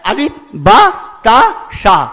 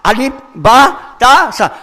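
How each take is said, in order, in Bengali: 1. অক্ষরের নামগুলো 'a' স্বরধ্বনি দিয়ে শেষ হয়। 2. অক্ষরের নামগুলো 'a' স্বরধ্বনি দিয়ে শেষ হয়।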